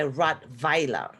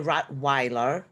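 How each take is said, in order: First: The middle consonant is a V sound. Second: The middle consonant is a W sound. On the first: This is how Germans say it. "We say Rottweiler. The vi it's a V" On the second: This is how English speakers say it. "So you say Rottweiler, the Weiler"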